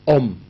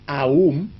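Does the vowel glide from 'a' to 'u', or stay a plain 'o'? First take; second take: plain o; glide. First: The vowel is a single plain 'o' sound. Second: The vowel glides from an 'a' to a 'u'. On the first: "y la pronunciación Om" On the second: "hay la pronunciación Aum, A, U, M"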